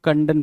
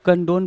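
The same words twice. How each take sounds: First: "कंडन" with a short, reduced last vowel; short-vowel pronunciation. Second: "कंडोन" with a long o in the last syllable; long-o pronunciation. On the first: Teacher showing how other readers say it, "कंडन" with short last vowel. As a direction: say "कंडन" ending in an unstressed "-dun". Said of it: "कुछ लोग कंडन पढ़ेंगे". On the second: Teacher showing how some readers say it, "कंडोन" with long o. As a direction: say "कंडोन" to rhyme its ending with "bone". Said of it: "कुछ लोग कंडोन पढ़ेंगे". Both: Shown as a demonstration.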